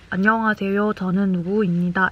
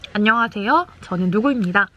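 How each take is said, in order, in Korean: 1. 처음부터 끝까지 높낮이가 평평하고 일정해요. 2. 높낮이가 눈에 띄게 오르내려요. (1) "이렇게 말하지 마시고" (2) "라고 말을 하시면 조금 더 좋지 않을까"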